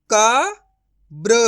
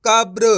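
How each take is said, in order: First: कब्र broken as "ka... bra", with a long pause; syllable by syllable. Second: कब्र joined as "kabr", loud; blended whole word. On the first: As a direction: sound out कब्र very slowly in two parts. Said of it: "direct मात्रा का उच्चारण करके पढ़ेंगे". (कब्र को "क... ब्र" तोड़कर धीरे बोलें) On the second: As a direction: read कब्र in one go without a break. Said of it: "तो मिलके बन जाएगा". (कब्र को जोड़कर एक साथ बोलें) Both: Shown as a demonstration.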